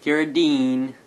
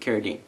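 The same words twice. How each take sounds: First: The stress falls on the last part. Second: The stress falls on the first part. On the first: The speaker calls it wrong. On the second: The speaker calls it right.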